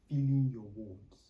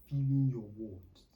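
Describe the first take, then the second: No difference in how they are said.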